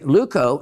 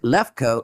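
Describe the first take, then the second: First: The first syllable sounds like 'loo'. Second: The first syllable sounds like 'lef'. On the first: It names a colorless garnet. "if you pronounce it as in Leuco garnet"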